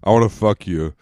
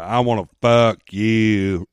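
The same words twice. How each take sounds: First: It is said in a plain, normal voice. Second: It is said in an Aldo Raine impression.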